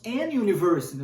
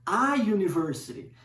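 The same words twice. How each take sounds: First: "an university" with an N linked before the yoo; wrong article. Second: "a university" with a bare vowel before the yoo; correct article. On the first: Teacher showing what is not said, N in "an university". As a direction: run "an" into "university", sounding the N. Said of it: "nós não falamos an university". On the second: Teacher showing the correct form, no N in "a university". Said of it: "nós utilizamos, na verdade". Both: Shown as a demonstration.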